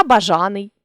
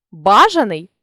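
First: Бажаний with ЖА stressed; stress on middle syllable. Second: Бажаний with БА stressed; stress on first syllable. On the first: Teacher shows a stress variant, бажаний stressed on ЖА. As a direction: lean on ЖА inside бажаний. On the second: Teacher shows a stress variant, бажаний stressed on БА. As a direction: punch the opening БА of бажаний. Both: Shown as a demonstration. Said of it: "наголосивши той чи інший склад".

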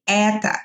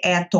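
First: "это" said E-ta, stress on the first vowel; reduced final vowel. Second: "это" with a full final o; spelled-out vowel. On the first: Teacher modelling for students, "это" ending like a. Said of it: "kind of like a at the end". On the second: Teacher showing students what not to say, "это" with a full o. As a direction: say "это" as spelled, ending in a clear o. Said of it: "we don't actually pronounce it as o". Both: Shown as a demonstration.

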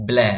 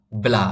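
First: ব্ল্যা with a tilted ae; slanted "ae" vowel. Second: ব্লা with an open, straight aa; straight "a" vowel. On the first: Teacher shows learners the other reading of BLA, ব্ল্যা with slanted ae. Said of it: "কাত করে বলবেন". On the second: Teacher shows learners the first reading of BLA, ব্লা with straight aa. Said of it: "এটা সোজা করে উচ্চারণ করি আমরা". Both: Shown as a demonstration.

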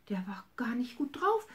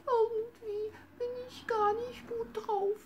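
First: Said in the usual way. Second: Sad little bunny. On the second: Acted. Bunny Hops tells grandma he feels sick, high crying whimper. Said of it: "so ganz traurig und sagte".

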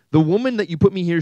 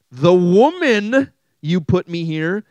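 First: Loud, brisk accusation, higher pitched; quicker blame. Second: Loud, slow, high-pitched blaming; accusing blame. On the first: Adam's answer read to the congregation, loud and brisk. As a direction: rattle off the blame loudly. Reads Adam's line again, faster. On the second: Adam blames the woman to God, loud and accusing. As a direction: draw out the accusation, loud and higher. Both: Acted.

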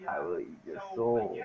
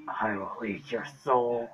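First: Deep demonic growl; possessed. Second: Slow, drawn-out demonic voice; possessed. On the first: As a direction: voice of a creepy possessed doll. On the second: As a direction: drag it out like a haunted spirit. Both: Pretend. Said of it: "Being creepy is my thing".

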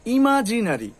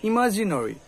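First: ইমাজিনারি ending in open "na-ri"; full "a" before ri in ইমাজিনারি; common mispronunciation. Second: ইমাজিনারি ending in rounded "no-ri"; correct pronunciation. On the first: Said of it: "কি হবে". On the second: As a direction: round the vowel before ri in ইমাজিনারি. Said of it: "এই যে নরি". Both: Shown as a demonstration.

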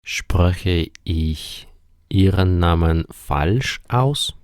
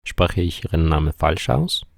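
First: Slow, word-by-word German question; measured teaching pace, drawn-out words; slow model sentence. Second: Said in the usual way. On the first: Shown as a demonstration. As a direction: say it slowly for learners, pausing after "ich". Teacher models question slowly, then repeats quicker.

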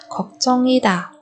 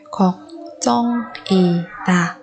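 First: Said in the usual way. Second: 걱정이다 slowly, each syllable apart. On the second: Shown as a demonstration. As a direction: break 걱정이다 into drawn-out syllables. Teacher models word syllable by syllable.

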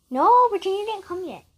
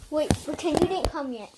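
First: Higher and louder, insisting. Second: Said in the usual way. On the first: Real, not acted. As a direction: correct them firmly.

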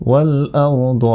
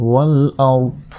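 First: ওয়াল আরদ with an open vowel after the দ; continuing form. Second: ওয়াল আরদ closed on the দ, no vowel after; stopping form. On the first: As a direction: sound the final vowel, "ardo". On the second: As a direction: cut the final vowel and stop on the consonant. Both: Shown as a demonstration. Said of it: "থামলে".

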